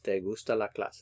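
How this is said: It is said with statement intonation. You like the class. "Nice statement"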